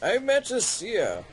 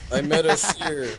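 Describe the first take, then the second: First: It is read in a put-on character voice. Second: It is read in the speaker's ordinary voice.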